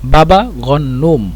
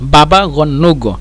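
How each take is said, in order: First: The word ends with an m sound. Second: The word ends with a g sound. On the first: "মিম দিয়ে ব্যবহার করি" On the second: "জিমকে মানে গয়েন হিসেবে ব্যবহার করে"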